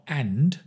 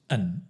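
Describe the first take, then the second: First: The word is said in full with a d. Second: The word is reduced and drops the d. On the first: The speaker calls it wrong. "not and" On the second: The speaker calls it right. "just an"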